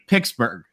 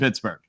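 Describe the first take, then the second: First: Pittsburgh is said a marked, different way. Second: Pittsburgh is said the ordinary, unremarked way. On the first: The speaker calls it right. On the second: The speaker calls it wrong.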